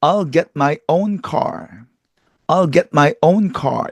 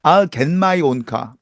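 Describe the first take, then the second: First: "get my" with stopped t; English-style "I'll get my own car"; accurate pronunciation. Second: "get" said as "gen" before "my"; Korean-accented "I'll get my own car", "gen my"; Korean mispronunciation. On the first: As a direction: keep the t in "get", unreleased before "my". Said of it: "정확히 발음하면". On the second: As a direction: nasalise the t of "get" into n. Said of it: "이렇게 발음하고 있죠". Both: Shown as a demonstration.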